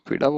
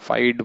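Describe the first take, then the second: First: The name is said as two syllables, 'feeda'. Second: The name is said as one syllable, 'fide'. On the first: "हम तो फीडा बोल लेंगे" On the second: "फाइड बोल रहा हूं मैं इसको"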